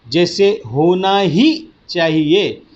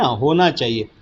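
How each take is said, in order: First: ही hit harder in होना ही चाहिए; ही pushed, slow phrase; stress on ही. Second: Said in the usual way. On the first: Shown as a demonstration. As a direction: lean on the word ही. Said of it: "इसमें ही पर हम बल देते हैं". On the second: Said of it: "होना चाहिए ये शब्द बराबर है ना".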